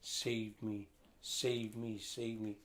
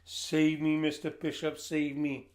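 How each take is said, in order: First: Softer "Save me" three times, fading quieter each time; a weak, distant cry for help; faint plea. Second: Louder, higher "Save me, Mister Bishop, save me" cried out; desperate plea. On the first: Boy stranded on the island, crying softly, fading. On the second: Stranded boy crying out to the approaching rescuer, loud and desperate. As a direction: beg him to come and save you. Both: A narrator's reading.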